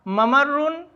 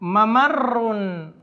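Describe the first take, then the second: First: Said in the usual way. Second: ممرن said very slowly, double ر drawn out; Arabic word demo. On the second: Shown as a demonstration. Teacher to students presenting the last word slowly. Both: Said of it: "ایک لفظ اور لے لیتے ہیں".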